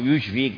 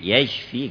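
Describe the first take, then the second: First: The first vowel is u, yushfik. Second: The first vowel is a, yashfik. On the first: It wishes the listener brought to the brink of death. The speaker calls it wrong. "ما هو يشفيك" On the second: It wishes the listener healing. The speaker calls it right. "بفتح الياء"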